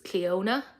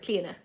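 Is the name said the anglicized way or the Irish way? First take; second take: anglicized; Irish. First: The name has an anglicized pronunciation. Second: The name has its Irish pronunciation. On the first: This is how the brand says its own name. "they pronounce themselves as Cleona, which is a much more like anglicized version" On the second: This is how the speaker's own people say it. "how we'd we'd pronounce it as Cleona"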